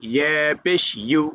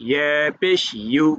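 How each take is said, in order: The two takes are said the same way.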